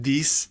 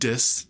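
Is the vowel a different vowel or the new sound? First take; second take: different vowel; new sound. First: The vowel is a different, non-target I sound. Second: The vowel is the new short I sound. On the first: The speaker calls it wrong. "not dis" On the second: The speaker calls it right. "pronounced with this new sound, dis"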